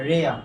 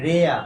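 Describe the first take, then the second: The two takes are said the same way.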